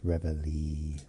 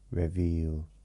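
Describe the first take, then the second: First: The name ends with an 'ee' sound. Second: The name ends with an 'eel' sound. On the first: The speaker calls it right. "rather than the E at the end. So it's reveille" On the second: The speaker calls it wrong. "I put too much emphasis on the E I"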